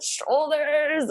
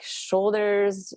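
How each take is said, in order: First: High, drawn-out exclamation; mock cry out. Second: Said in the usual way. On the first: Mother imitating herself at the big push, high playful cry. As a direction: call it out high, stretching the word. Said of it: "And I think I said".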